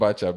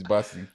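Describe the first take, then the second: First: The middle consonant is pronounced 'ch'. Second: The middle consonant is pronounced 's'. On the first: The speaker calls it wrong. "it's not Bachab" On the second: The speaker calls it right. "it's Basi"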